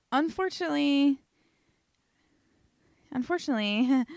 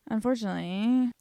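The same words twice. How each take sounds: First: Mock dramatic. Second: Said in the usual way.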